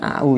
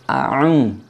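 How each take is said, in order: First: The two vowels glide together without a catch. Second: A heavy throat catch separates the two vowels. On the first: The speaker calls it wrong. "bukan au ya" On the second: The speaker calls it right. "pakai ain ya, a kemudian ung, berat ya"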